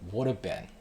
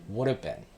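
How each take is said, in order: The two takes are said the same way.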